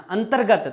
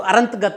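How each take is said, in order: First: अंतर्गत said high, "an-tar-gat"; r after t. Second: अरंतगत with the r jumped to the front, "a-rant-gat"; mispronounced. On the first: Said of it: "तय के बाद में रे को बोल रहे हैं". (अंतर्गत में त के बाद र का उच्चारण) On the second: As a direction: show the slip अरंतगत, r before the "n". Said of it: "ये तो अशुद्ध हो गया". (गलत उच्चारण "अरंतगत", र आगे) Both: Shown as a demonstration.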